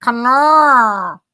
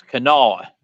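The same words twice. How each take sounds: First: "Kanawha" drawn out slowly, the end bellowed through the nose; a slow, mooing "Kanawha" like a cow bellering. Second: "Kanawha" ending in a nasal "naw". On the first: Trying the nasal "Kanawha", it comes out like a cow bellering. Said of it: "Sounds like a cow bellering". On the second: Coaching the nasal ending on "Kanawha". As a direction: say "Kanawha" with the last part pushed through the nose. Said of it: "That last part's gotta be through your nose". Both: Shown as a demonstration.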